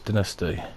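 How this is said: It is said with a British pronunciation. "That's the way we say it"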